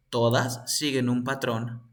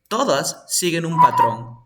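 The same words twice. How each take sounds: First: Said in the usual way. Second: "Todas" stressed loud and falling; emphatic repeat. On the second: Shown as a demonstration. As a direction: hit "Todas" hard and louder.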